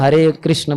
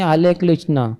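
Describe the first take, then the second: First: The first word is said with an r sound. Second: The first word is said with an l sound. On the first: The child can say it once teeth grow. The speaker calls it right. "जब दांत आएंगे तभी वो हरे कृष्ण बोल पाएगा" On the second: A small child without teeth says it. The speaker calls it wrong. "र का ल हो जाएगा"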